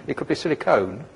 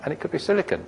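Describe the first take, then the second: First: "silicone" said sil-i-cone, last syllable "cone"; "silicone" with a full "cone" ending; silicone with long o. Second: "silicon" said sil-i-cn, last syllable reduced; "silicon" with a short unstressed "con"; silicon with weak ending. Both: Shown as a demonstration. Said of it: "could misspell silicon".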